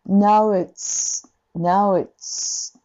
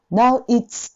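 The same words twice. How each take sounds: First: Now it's with the u gliding into i, no break; linked now it's. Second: Now it's with a throat break before it's; choppy now it's. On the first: Teacher showing the linked version after the mistake. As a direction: join now and it's smoothly in one breath. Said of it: "切らずに". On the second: Teacher imitating the typical Japanese learner mistake. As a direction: cut it off in the throat like a Japanese speaker. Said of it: "now itって喉でこう切り直すんだけど". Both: Shown as a demonstration.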